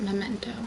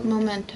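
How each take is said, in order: First: The first syllable has an 'eh' vowel. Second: The first syllable has an 'oh' vowel. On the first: This is the actual version. The speaker calls it right. "spelled and pronounced like that" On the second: This is the mistaken version once believed. The speaker calls it wrong. "I always thought it was Momento"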